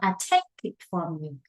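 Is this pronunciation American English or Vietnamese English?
Vietnamese. The vowel in 'take' does not sound like A. The speaker calls it wrong. "not I take it from you ... that is Vietnamese English"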